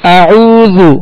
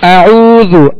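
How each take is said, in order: No difference in how they are said.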